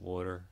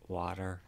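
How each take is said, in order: First: It is said in a South Philly accent. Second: It is said in a neutral American accent. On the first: "I try to hide my South Philly accent" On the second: "or water instead of"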